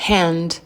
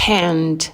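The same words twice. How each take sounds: The two takes are said the same way.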